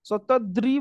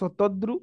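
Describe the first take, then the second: First: The final syllable is pronounced 'ri'. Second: The final syllable is pronounced 'ru'. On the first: This is the Sanskrit or Hindi pronunciation. "Sanskrit କିମ୍ବା ହିନ୍ଦୀରେ ରି ଉଚ୍ଚାରଣ କରନ୍ତି" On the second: This is the Odia pronunciation. "ସେଟାକୁ ଆମେ ଓଡିଆରେ ରୁ ଫଳା ଉଚ୍ଚାରଣ କରନ୍ତି"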